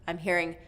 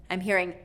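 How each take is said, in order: Both takes have the same delivery.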